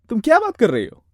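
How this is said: It is said with strong, emotional expression.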